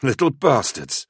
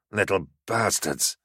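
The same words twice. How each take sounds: First: High, indignant exclamation; exclaimed curse. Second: Slow, drawn-out hiss of annoyance; hissed curse. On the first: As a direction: burst out with the curse. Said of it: "Cylon exclaimed". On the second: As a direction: hiss it slowly under control. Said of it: "he hissed". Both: A narrator's reading.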